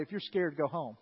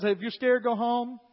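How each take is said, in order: First: Said in the usual way. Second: Louder announcement to the whole army; calling out to troops. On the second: Acted. Gideon calling out to his troops, loud announcement. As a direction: call it out across the camp.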